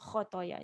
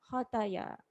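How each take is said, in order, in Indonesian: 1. Bunyi kh yang pertama tebal. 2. Bunyi kh yang pertama tipis. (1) "kha tebal sikit" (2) "Jangan baca khataya"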